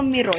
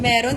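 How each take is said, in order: First: The first vowel sounds like 'i'. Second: The first vowel sounds like 'e'.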